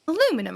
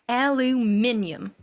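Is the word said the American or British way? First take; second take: American; British. First: Four syllables, ending in a -num sound. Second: Five syllables, ending in a -nium sound. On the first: "how do you say aluminum?" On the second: "You know how the English say it?"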